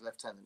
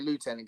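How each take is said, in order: First: The first syllable sounds like 'left'. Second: The first syllable sounds like 'loo'. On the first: The speaker calls it right. "the correct pronunciation is lieutenant" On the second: The speaker calls it wrong. "some people just say lieutenant because they don't get it"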